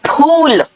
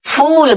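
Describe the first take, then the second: First: फूल starting with a puffed p-h; Hindi ph in फूल. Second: फूल starting with an airy f, as fool; English f in फूल. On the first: Teacher modelling Hindi flower, aspirated ph in फूल. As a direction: burst both lips open on फूल. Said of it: "इसीलिए हिंदी का". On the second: Teacher modelling English fool, f in फूल. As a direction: slide air into फूल, lips apart. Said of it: "और English में". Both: Shown as a demonstration.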